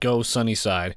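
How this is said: It is said with only mild enthusiasm.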